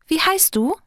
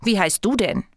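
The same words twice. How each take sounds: First: High, insistent fairy question; nosy, pitched well up; pestering. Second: Sulky question thrown back; stubborn little retort; defiant. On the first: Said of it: "nervt sie weiter". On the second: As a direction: ask back defiantly, stressing who is asked. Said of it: "fragt das Herz trotzig zurück". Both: A narrator's reading.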